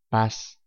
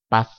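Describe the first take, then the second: First: The final z sounds like an s. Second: The final z sounds like English th.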